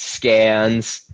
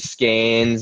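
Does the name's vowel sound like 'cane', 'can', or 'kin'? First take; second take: can; cane. First: The vowel sounds like the one in 'can'. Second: The vowel sounds like the one in 'cane'. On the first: The bearer is from Rhode Island or Massachusetts. "if it's from you know Rhode Island, Massachusetts, it's Scans" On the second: The bearer is from Connecticut. "if he was from from Connecticut, it's probably Skanes"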